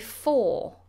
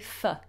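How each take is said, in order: First: The word has a full, clear vowel. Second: The word has a reduced, weak vowel. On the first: "In its strong form, we say for" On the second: "In its weak form, we say f"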